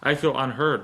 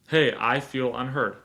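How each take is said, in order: First: It sounds argumentative and confrontational. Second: It sounds calm and open to listening.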